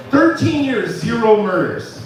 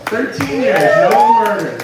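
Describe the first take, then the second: First: Said in the usual way. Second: Much higher, louder and slower squeal of the punchline; cartoonish high squeal. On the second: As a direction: squeal it out, hammed up for the laugh. Repeating the punchline, far higher and louder.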